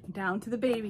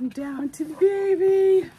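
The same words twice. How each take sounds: First: Said in the usual way. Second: Much louder, higher cheer; excited announcement. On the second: Real, not acted. Telling viewers the baby is next, loud excited cheer. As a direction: shout the big reveal.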